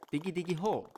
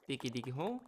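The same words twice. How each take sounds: First: Higher sung refrain; playful singing. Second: Playful singing. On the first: Leading viewers in the digging song, higher playful singing. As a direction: sing out the digging chant. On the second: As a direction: sing it back quietly, ending on a rise. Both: Pretend. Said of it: "let's sing together".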